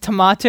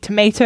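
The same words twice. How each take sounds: First: It is said with an Australian accent. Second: It is said with an American accent.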